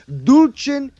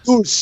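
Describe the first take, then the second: First: The word is said with an Italian pronunciation. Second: The word is said with a Spanish pronunciation. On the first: "if you're gonna say it Italian, it's dulce" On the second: "In Spanish, it's dulce"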